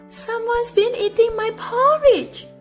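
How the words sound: It is said in a soft, exclaiming voice.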